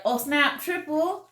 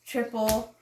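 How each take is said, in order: First: High, excited game call. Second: Said in the usual way. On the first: Shown as a demonstration. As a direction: shout out the triple in surprise. Acting out calling a triple.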